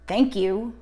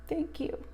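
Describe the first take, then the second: First: It is said in an angry tone. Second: It is said in a tender tone.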